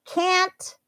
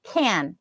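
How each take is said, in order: First: "can't" high and stretched, crisp final T; emphasized CAN'T. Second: "can" said alone with a full vowel, no T; full, falling "can" ending on the N; emphasized CAN. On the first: English teacher showing learners the word alone, emphasized can't. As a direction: say "can't" alone with a clear vowel and released T. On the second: English teacher showing learners the word alone, emphasized can. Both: Shown as a demonstration. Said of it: "that's how they sound when I'm emphasizing them".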